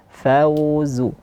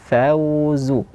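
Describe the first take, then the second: Both takes have the same delivery.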